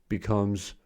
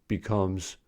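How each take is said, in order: The two takes are said the same way.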